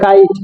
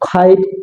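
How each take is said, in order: First: The first k sound has no puff of air. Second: The first k sound has a puff of air. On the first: The speaker calls it wrong. "আমরা আগে বলতাম" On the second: The speaker calls it right. "কারেক্ট যে pronunciation"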